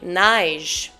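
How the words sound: It is said in a Quebec French accent.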